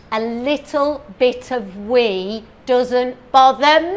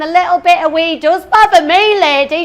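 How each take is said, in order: First: Slow, lightly voiced mock advert lady. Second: Higher, louder outraged comeback; indignant retort. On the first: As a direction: purr it like a breezy TV ad. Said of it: "she says". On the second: Retold or imitated. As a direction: snap it back at the advert lady. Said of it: "I'm thinking".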